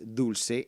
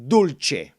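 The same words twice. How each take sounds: First: The word is given a Spanish pronunciation. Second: The word is given an Italian pronunciation. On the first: "in Spanish is pronounced dulce" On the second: "in Italian it's spelled the same, but it's pronounced dulce"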